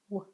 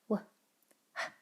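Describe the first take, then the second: First: Only a w sound is heard, with no h. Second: A w sound is followed by an h sound. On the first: The speaker calls it right. "you're only making the noise for W, but not making any sound for the H" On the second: The speaker calls it wrong. "instead of saying w, h"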